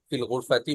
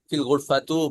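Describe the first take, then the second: First: The last word ends with an i vowel. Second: The last word ends with an u vowel. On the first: The speaker calls it right. "ফিল গুরফাতি বলতে হবে" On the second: The speaker calls it wrong. "এভাবে বলা যাবে না"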